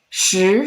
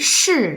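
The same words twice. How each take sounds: First: The pitch rises. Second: The pitch falls. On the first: "Second tone" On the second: "fourth tone"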